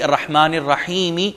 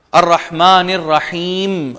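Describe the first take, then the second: First: الرحیم ending with a kasra, رحیمِ; full vowel. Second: Slow الرحیم with a silent final meem; pausal form. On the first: Teacher showing the full reading without the stop. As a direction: carry the vowel on the meem of الرحیم. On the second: Teacher reciting the pause form. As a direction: recite and stop on الرحیم, slowly. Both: Shown as a demonstration. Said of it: "جبکہ in reality".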